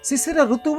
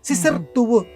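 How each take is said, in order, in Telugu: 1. రెండు వేరు వేరు పదాలు, ధ్వనులు కలవవు. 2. ఈ రెండు పదాలు కలిసి ఒకే పదంగా అవుతాయి. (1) "శిశిర ఋతువు అనకూడదు. తప్పుడు పదం" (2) "శిశిర్తువు అనాలి"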